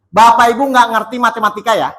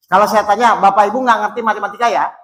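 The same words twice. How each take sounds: First: Said in the usual way. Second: The question again, rattled off quickly; faster repeat. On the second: Shown as a demonstration. Preacher repeats his question to the congregation, quickly. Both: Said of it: "Saya ulang ya".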